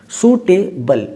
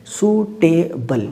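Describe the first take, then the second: First: Said in the usual way. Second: सूटेबल drawn out very slowly in three parts; सूटेबल syllable by syllable; broken into syllables. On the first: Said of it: "इस word में आप देखिए three syllable है". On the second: Shown as a demonstration. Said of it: "word को मैं तीन तरह से ब्रेक कर पा रहा हूँ".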